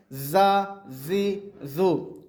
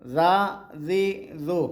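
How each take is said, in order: First: زا، زی، زو with a firm, hard ز; hard z sound. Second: زا، زی، زو with a soft, gentle ز; soft z sound. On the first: Teacher shows viewers the firm ز of زا، زی، زو. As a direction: press the ز of زا، زی، زو hard. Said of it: "اس کو تھوڑا سا سختی سے پڑھیں گے". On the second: Teacher shows viewers the soft ز of زا، زی، زو. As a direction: let the ز of زا، زی، زو come out softly. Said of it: "یہ نرمی والا حروف ہے". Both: Shown as a demonstration.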